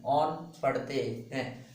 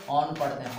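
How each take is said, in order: First: On पढ़ते हैं drawn out very slowly, word by word; slow dictation. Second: Said in the usual way. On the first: Shown as a demonstration. Teacher to students, slowly repeating the suffix name. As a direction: spell it out slowly for the class to write. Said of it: "CO को IUPAC में on पढ़ते हैं". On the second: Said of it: "क्या पढ़ते हैं इसको?".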